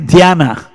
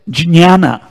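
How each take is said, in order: First: It is said the way Marathi speakers say it. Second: The ja and nya sounds are joined together. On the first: "In Marathi, they say Dhyana" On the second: "Ja and Nya come together"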